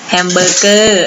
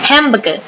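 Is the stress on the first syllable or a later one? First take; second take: later; first. First: The stress is not on the first syllable. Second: The stress is on the first syllable. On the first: The speaker calls it wrong. "บางคนพูดว่า" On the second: The speaker calls it right. "เน้นหนักที่พยางค์แรกนะคะ"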